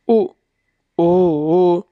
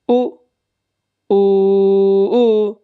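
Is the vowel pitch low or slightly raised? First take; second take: low; slightly raised. First: The vowels are said with a low pitch. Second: The vowels are said with a slightly raised pitch. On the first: "रेखा दी है नीचे ... नीचे की तरफ" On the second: "जैसे हमने अनुदात को नीचे किया था, उसका थोड़ा"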